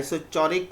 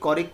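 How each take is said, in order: First: "isochoric" with ch as in chair; ch pronunciation. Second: "choric" with a hard k; k pronunciation. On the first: Teacher comparing two accepted variants, "isochoric" with a ch sound. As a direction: pronounce "isochoric" as iso-CHO-rik. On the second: Teacher saying either variant is fine, "choric" with ch said as k. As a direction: pronounce "choric" as KO-rik. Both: Shown as a demonstration. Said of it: "कोई फर्क नहीं पड़ता".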